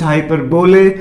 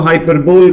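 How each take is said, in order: First: The word ends in a 'bolee' sound. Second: The word ends in a short 'bol' sound. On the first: "कुछ हाइपरबोले" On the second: "कुछ लोग इसको हाइपरबोल कहते हैं"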